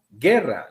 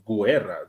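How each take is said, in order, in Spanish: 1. La u es muda después de la g. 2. La u se pronuncia como una w después de la g. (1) "no hay pronunciación de la U" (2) "yo no estoy diciendo guerra"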